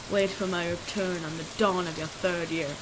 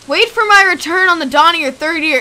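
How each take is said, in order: First: Low, hushed spirit voice; quiet, low ghostly pronouncement; ominous spirit. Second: Loud, raised-pitch incredulous repeat; agitated, higher and louder quoting; loud disbelief. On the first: Acted. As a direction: deliver a soft, deep prophecy. Reads a spirit's message aloud. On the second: Real, not acted. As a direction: throw the message back in alarm.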